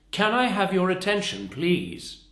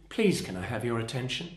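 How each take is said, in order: First: High, loud call, dropping onto a separate PLEASE; commanding inflection. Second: Polite, unforceful request; ultra polite. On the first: Trainer shows calling passengers to attention, commanding inflection. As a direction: demand attention firmly, "please" falling at the end. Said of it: "It's the inflection and it's the accent". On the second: Trainer shows the weaker appeal for attention, ultra polite. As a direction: ask courteously, with no power behind it. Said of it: "that's ultra polite. That's not very powerful". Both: Shown as a demonstration.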